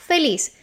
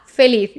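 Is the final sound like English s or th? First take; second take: s; th. First: The final sound is an s sound. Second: The final sound is a th sound. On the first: This is how it is said in Latin America. "Z in Spanish from Latin America is pronounced as an S" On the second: This is how it is said in Spain. "in Spain is pronounced"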